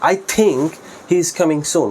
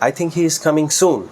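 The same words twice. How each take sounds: First: The word think gets the stress. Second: The word soon gets the stress. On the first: It is only a belief that he is coming. "এই থিঙ্কের উপর একটু intonation স্ট্রেসটা বেশি দেয়" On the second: The quickness of the arrival matters most. "সুনের উপরে stress দেই"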